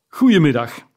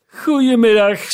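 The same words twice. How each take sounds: First: Curt dismissal. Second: Furious dismissal. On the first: Scrooge dismisses his nephew. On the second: Scrooge's last furious goodbye to his nephew, much higher and louder. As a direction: bark him out of the room. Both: A narrator's reading.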